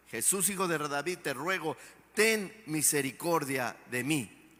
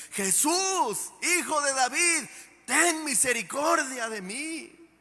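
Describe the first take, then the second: First: Súplica más suave y tranquila, con fe; "te ruego" dicho con calma y confianza; ruego sereno. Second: Grito alto y fuerte, insistente; más fuerte. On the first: (Bartimeo rogando a Jesús con fe, en tono bajo) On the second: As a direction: clama más fuerte sin importar que lo callen. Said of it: "y más fuerte decía". (Bartimeo grita aún más fuerte pese a la multitud) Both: Retold or imitated.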